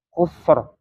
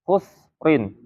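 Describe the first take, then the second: First: The word ends on a bare 'r' sound. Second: The word ends with the syllable 'rin'. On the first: The reader stops and pauses on the word. "harus diwakafkan" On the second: The reader continues without pausing on the word. "tidak diwakafkan"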